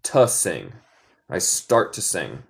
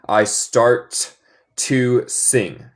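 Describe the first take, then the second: First: "I start to sing." said low, with a swallowed "t"; low, casual American "I start to sing."; American T-drop. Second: "I start to sing." with a clear "t" in "start"; careful neutral model; neutral English. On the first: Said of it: "Yo digo más como". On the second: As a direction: sound the "t" in "start" cleanly. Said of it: "Se puede decir en inglés neutral". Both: Shown as a demonstration.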